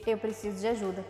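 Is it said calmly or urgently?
calmly. It is said in a calm, plain way.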